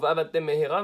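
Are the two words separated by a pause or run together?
run together. The two words run together without pause. It sounds like one meaningless word. The speaker calls it wrong. "Le mot va'avatem mehera ne veut rien dire"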